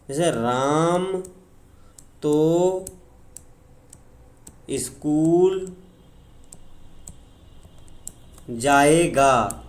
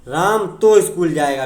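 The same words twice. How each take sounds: First: Each word drawn out with long pauses, तो held; slow emphatic example. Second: तो punched, louder; stress on तो. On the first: Teacher slowly stressing तो for the class. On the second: Teacher repeating the example with तो stressed. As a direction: hit तो firmly at normal pace. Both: Shown as a demonstration. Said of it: "इस पर बल दिया गया है ना".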